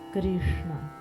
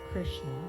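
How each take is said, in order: First: The tongue taps the roof of the mouth. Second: The r and sh are plain English sounds. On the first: "bringing your tongue to the roof of the mouth" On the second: "usually we pronounce it Krishna, Krishna in English"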